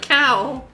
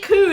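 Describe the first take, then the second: First: The vowel is an ow glide. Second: The vowel is a long oo sound. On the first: This is the standard way of saying it. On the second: This is the Scottish way of saying it.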